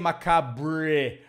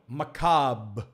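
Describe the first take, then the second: First: It is said Portuguese-style, with a pronounced 'br' ending. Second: It is said English-style, without a pronounced 'br' ending. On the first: The speaker calls it wrong. "We don't say macabre. Br, no" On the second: The speaker calls it right. "no, macabre"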